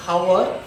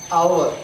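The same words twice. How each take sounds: First: "our" mispronounced as "how-er", H sounded. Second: "our" with the H dropped, opening straight on "ow"; silent H in OUR. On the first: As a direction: wrongly say "our" with a breathy H in front. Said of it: "not our". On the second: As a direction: say "our" starting on the vowel, no H. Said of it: "we pronounce". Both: Shown as a demonstration.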